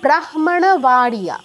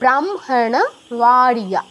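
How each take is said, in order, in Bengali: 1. h ধ্বনিটি m-এর আগে আসে। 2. m ধ্বনিটি h-এর আগে আসে। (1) "সেম হওয়া উচিত ছিল" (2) "অনুনাসিক ধ্বনিটা আগে"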